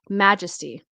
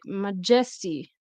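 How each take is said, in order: First: The stress falls in its usual place. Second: The stress falls on a shifted syllable. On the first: The speaker calls it right. "So it should be majesty" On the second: The speaker calls it wrong. "If your stress is at the wrong place"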